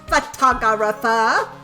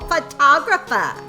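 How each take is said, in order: First: Every syllable of the word is pronounced. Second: Some syllables of the word are dropped. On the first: The speaker calls it right. "There we go" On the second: The speaker calls it wrong. "I feel like there was too few syllables in that word"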